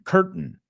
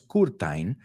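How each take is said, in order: First: The ending sounds like that of 'mountain'. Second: The ending does not sound like 'mountain'. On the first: The speaker calls it right. "Es como mountain" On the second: The speaker calls it wrong. "No es curtain"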